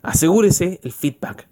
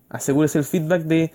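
First: A driving-the-point-home reminder; slow emphatic advice. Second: Said in the usual way. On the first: Shown as a demonstration. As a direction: lean on "asegúrese", slow and firm. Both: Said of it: "Ojo, cuando uno hace ciertas cosas".

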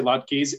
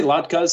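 First: Latkes ending "keez". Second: Latkes ending "kuz". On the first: Explaining variants to co-host, latkes ending in "keez". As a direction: say latkes with a long "ee" in the last syllable. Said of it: "Some people say latkes". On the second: Explaining variants to co-host, latkes ending in "kuz". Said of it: "some people say latkes". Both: Shown as a demonstration.

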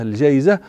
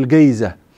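First: Said in the usual way. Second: الجيزة with a hard g, as in Moroccan speech, not j; Moroccan g sound. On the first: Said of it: "ولا ننطقها جيما". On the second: Shown as a demonstration. Teacher showing students the Moroccan word الجيزة with hard g. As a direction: say الجيزة with the knotted qaf, a hard g. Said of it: "ننطقها هذه القاف المعقودة".

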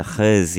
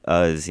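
First: Khuz with a rasping throat kh sound at the start; Arabic-style khuz with a throaty kh. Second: Uz with no throat sound, just a plain open vowel; soft uz. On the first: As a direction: say khuz with a scraped, guttural kh like Arabic. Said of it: "they do the". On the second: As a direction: drop the kh and say uz. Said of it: "But I don't do the khuz, I do the". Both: Shown as a demonstration.

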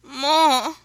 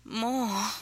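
First: Loud, high, insistent plea; begging. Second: Higher, breathy gasped request; gasped plea. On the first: Woman urging her lover on, loud begging. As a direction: cry it out, begging hard. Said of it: "she begged". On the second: Woman urging her lover on, breathy gasp. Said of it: "she gasped". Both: A narrator's reading.

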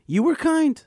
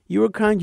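First: "were" said much higher and pushed hard; stress on were. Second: "were" stressed again, a little higher than usual. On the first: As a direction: lean all the weight on "were". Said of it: "teacher voices Naomi's thanks". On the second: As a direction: repeat it with the stress on "were" but gentler. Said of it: "teacher repeats Naomi's thanks". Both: Shown as a demonstration.

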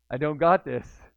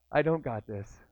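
First: Louder second take of the doubt; repeated with louder alarm; louder despair. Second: Said in the usual way. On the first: Retold or imitated. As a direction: push it out as panic sets in.

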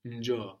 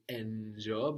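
First: "njo" begun straight on a hummed n; n without vowel. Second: "njo" wrongly begun with a vowel, as en-jo; vowel before the n. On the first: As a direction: start "njo" on the n, no vowel before it. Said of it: "start just with the n sound without any vowel before". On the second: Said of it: "we don't say njo". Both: Shown as a demonstration.

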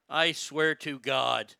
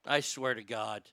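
First: Slow, drawn-out and louder, every word leaned on; slow exasperated. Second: Said in the usual way. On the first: Real, not acted. Streamer dragging the oath out to chat, exasperated. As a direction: drag it out, fed up. Repeats slower, frustrated.

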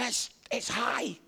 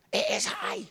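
First: Said in the usual way. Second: "is" pushed out in a much higher pitch; stress on IS. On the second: Retold or imitated. Preacher recalling the higher ledge, stressing "is". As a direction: insist on "is", voice jumping up. Repeats it for emphasis.

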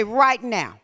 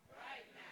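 First: Said in the usual way. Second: "Right now" breathed as a whisper. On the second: Shown as a demonstration. Preacher whispering right now back to the church, hushed. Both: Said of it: "Somebody say".

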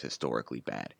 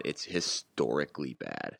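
First: Said in the usual way. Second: "historically" drawn out slowly for weight; emphatic restatement. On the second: Real, not acted. Co-host drives home how poor the penalty kill is, stressing "historically". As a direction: stretch out "historically" as the key word.

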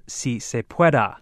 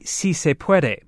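First: "puede" wrongly ended in an ah sound; mistaken "pueda". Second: "puede" ending in an eh sound; correct "puede". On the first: Reporter repeats Clinton's Spanish slip, mispronounced "pueda". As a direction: say "si se pueda" with final -a. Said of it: "instead of". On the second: Reporter shows what Clinton meant to say, correct "puede". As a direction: say "si se puede" with a clear final -e. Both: Shown as a demonstration.

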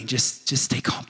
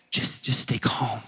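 First: Said in the usual way. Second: Slow hushed whisper of stay calm. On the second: Shown as a demonstration. Pastor hushing a fearful congregation, whispering. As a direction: breathe the words out soft and slow.

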